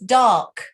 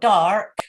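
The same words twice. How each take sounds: First: The R sound is dropped after the vowel. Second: The R sound is pronounced after the vowel. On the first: The speaker calls it right. "It's dark. You don't pronounce the R" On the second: The speaker calls it wrong. "It's not dark"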